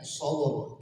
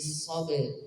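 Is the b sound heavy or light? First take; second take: heavy; light. First: The b sound is heavy and thick. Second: The b sound is light and thin. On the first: The speaker calls it wrong. "tidak sabr" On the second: The speaker calls it right. "tipiskan dulu ba-nya"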